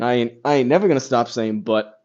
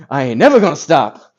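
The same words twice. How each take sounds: First: Said in the usual way. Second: Loud, punchy catchphrase quote, stress on never; comic catchphrase. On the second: Retold or imitated. Quoting the Kill Tony line Ben dropped, loud punchy catchphrase. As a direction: belt it like a stand-up's signature line.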